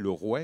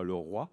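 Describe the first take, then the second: First: The vowel in roi sounds like 'weh'. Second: The vowel in roi sounds like 'wa'. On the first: This is the older seventeenth-century pronunciation. "le O I se prononçait ouais, on disait le roi" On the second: This is the later, modern pronunciation. "et non pas le roi"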